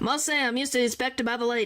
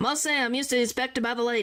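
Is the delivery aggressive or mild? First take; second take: aggressive; aggressive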